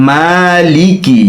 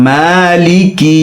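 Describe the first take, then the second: The two takes are said the same way.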